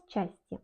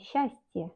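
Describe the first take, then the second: First: "счастье" said with a hard ch, s-CHAS-tye; wrong spelling pronunciation. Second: "счастье" with a soft hush, SHAS-tye; correct Russian pronunciation. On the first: Teacher showing what not to say, "счастье" as chastye. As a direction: say "счастье" letter by letter with ch. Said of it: "on ne dit pas счастье". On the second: Teacher showing what one says, "счастье" as shastye. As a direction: merge сч in "счастье" into sh. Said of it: "on dit счастье". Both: Shown as a demonstration.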